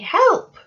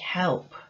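First: The word is said with strong, exclaiming expression. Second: The word is said flat, with little expression. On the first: The speaker calls it right. "We'd say help" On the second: The speaker calls it wrong. "So we wouldn't say help"

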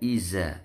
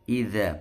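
First: The middle consonant is a plain 'z' sound. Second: The middle consonant is a soft 'dz' sound. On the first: The speaker calls it wrong. "bukan iza" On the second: The speaker calls it right. "Idza bukan iza ya"

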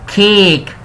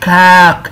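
First: The vowel is a closer e-like sound. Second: The vowel is an open a sound. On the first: The speaker calls it right. "حرف الاي اتنطق مكسور" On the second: The speaker calls it wrong. "مش كاك"

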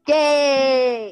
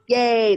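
First: It is said with lots of enthusiasm. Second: It is said with little enthusiasm.

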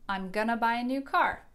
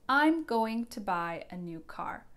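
First: Going to is reduced to gonna. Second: Going to is said fully as two words. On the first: "becomes gonna when we reduce it" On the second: "Going to"

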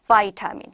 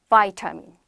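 The two takes are said the same way.

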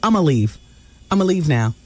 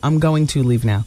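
First: 'Going to' is reduced to a short 'a'. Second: 'Going to' is said in full. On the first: "you exclude the words going to" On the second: "As opposed to"

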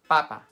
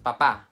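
First: The stress is on the first syllable. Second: The stress is on the second syllable. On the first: It means potato. The speaker calls it right. "En español, we call it papa" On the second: It means father. The speaker calls it wrong. "Not papa. Papa means father"

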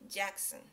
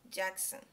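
No difference in how they are said.

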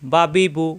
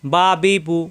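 Both takes have the same delivery.

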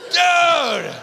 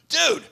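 First: It sounds thrilled and excited. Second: It sounds like a casual friendly greeting.

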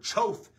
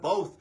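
First: The word begins with a ch sound. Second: The word begins with a b sound. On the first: The speaker calls it wrong. "I kept saying ch, like chose or choth instead of both" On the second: The speaker calls it right. "saying b with a b noise"

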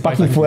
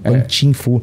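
First: The middle syllable begins with a k sound. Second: The middle syllable begins with a ch sound. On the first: This is the form used locally. "O pessoal aqui no Brasil conhece ele como Pak Kin Fu" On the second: This is the closer original form. "Pan Chin Fu é melhor"

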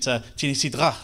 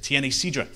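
First: It is said with a French pronunciation. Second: It is said with a Spanish pronunciation. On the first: The speaker calls it wrong. "like the French did" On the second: The speaker calls it right. "I wasn't pronouncing it like that"

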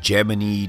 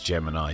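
First: It is said in the NASA pronunciation. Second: It is said in the common everyday pronunciation. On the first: This is how the agency itself said the name. "apparently NASA said Gemini" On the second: This is how most other people say the name. "everyone else thinks it's Gemini"

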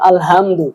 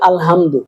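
First: The h is a light, plain breathy sound. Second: The h is a tense sound from mid-throat. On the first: The speaker calls it wrong. "ছোট হা বলছেন আলহামদু" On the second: The speaker calls it right. "বড় হা হা হলকের মাঝখান থেকে উচ্চারণ হয়"

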